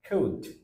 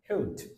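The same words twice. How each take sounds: First: The word is said with its full strong vowel. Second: The word is said with its full strong vowel.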